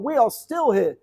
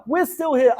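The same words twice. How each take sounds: First: "We are still here" with ARE leaned on, firm and final; slow, insistent "are"; stress on ARE. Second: Said in the usual way. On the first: Shown as a demonstration. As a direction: set "are" apart and press it down.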